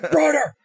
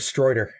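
First: The first vowel sounds like 'eye', American style. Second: The first vowel sounds like 'oy', vaguely British. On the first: "he just said it in, like, the American accent or whatever" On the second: "there's an oi in the middle of the way he says it"

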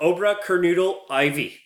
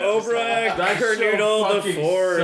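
First: The numeral is read out as 'ivy'. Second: The numeral is said as the word 'fourth'.

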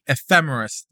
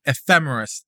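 First: The stress is on the second syllable. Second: The stress is on the second syllable.

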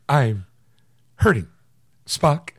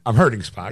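First: It is said with long dramatic pauses. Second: It is said smoothly without any pauses.

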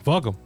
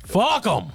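First: It is said plainly, without extra emphasis. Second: 'Fuck' is said with heavy, forced emphasis.

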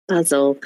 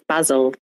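First: It is said in a British accent. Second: The same.

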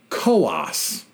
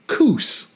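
First: The word is said with two syllables. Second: The word is said with one syllable. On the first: This is the New Hampshire county's name. "pronounced Coas, two syllable, rhymes with Haas" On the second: This is the Oregon place name. "that is pronounced Coos"

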